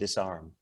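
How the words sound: It is said in an American accent.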